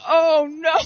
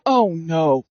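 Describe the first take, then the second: First: High mock-wail "oh no"; hammed-up high dismay; retold panic. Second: Low, sinking "oh no"; understated dismay, pitched right down; retold dread. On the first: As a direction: raise the voice into a comic wail of dread. Retold dread, repeated more strongly. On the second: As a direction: drop the voice low in mock dread.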